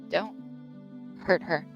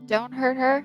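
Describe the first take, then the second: First: It is said in a more threatening tone. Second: It is said in a less threatening tone.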